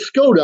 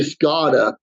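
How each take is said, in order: First: It is said with plain S-K and T sounds. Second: The T sound is softened into a D sound. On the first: The speaker calls it right. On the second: The speaker calls it wrong.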